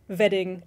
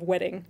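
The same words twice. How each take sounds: First: The word begins with a buzzing V sound. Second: The word begins with a rounded W sound. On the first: "revert to the German pronunciation of the V, ... of the W" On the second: "instead of wedding"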